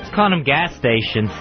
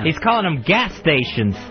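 First: The word gas is not specially stressed. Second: The word gas is strongly stressed.

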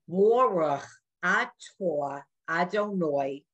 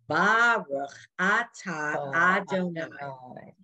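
First: It is said in Ashkenazi Hebrew pronunciation. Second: It is said in Sephardic Hebrew pronunciation. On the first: This is how older generations learned it. "anybody my age or older, you're going to hear them say" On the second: This is how younger generations learned it.

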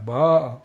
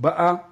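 First: The stress is on the second-to-last syllable. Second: The stress is on the final syllable. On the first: She already came. The speaker calls it right. "אלא באה" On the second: She is coming now. The speaker calls it wrong. "אז לא להגיד באה"

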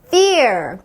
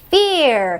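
First: The word begins with an f sound. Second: The word begins with a p sound. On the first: The speaker calls it right. "fear가 아니라 fear" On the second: The speaker calls it wrong. "peer라고 읽었겠지만 peer가 아니라"

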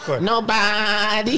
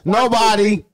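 First: It is said in a bleating, sheep-like voice. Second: It is said in a normal speaking voice.

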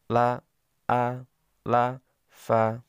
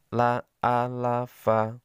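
First: The syllables are read slowly, one by one. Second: The syllables are read quickly, run together.

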